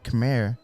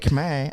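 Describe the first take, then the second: First: The word is said with an audible R. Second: The word is said without an audible R. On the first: "then you hear the R" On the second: "I don't hear the R in it"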